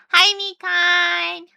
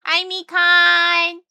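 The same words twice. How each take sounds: First: High, slow sing-song hello with the hi stressed; cutesy greeting. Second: High, slow sing-song hello to a fan; cutesy high greeting. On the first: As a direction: coo it lightly. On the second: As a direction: coo the name sweetly. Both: Acted.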